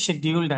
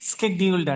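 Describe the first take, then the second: First: The word begins with an 'sh' sound. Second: The word begins with an 'sk' sound. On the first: This is the British way of saying it. "British English లో అయితే షెడ్యూల్డ్ అంటాం" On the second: This is the American way of saying it. "American English లో ఏమంటాం స్కెడ్యూల్డ్ అంటాం"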